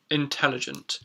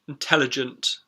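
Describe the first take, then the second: First: The schwa sound is barely noticeable. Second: The schwa sound is clearly audible. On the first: "in my particular accent, it's not necessarily so prominent" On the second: "but in a lot of accents"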